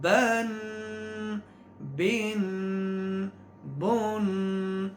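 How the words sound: Each syllable is said separately with nasalization. The speaker calls it right. "हर हरफ को अलग अलग एक आवाज़ में पढ़ के"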